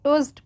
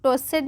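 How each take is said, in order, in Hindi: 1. अंत में बस एक सादा t ध्वनि है। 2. अंत वाला भाग एक अलग अक्षर की तरह बोला जाता है। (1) "टोस्ट पढ़ेंगे" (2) "इसको टोस्टेड नहीं पढ़ेंगे"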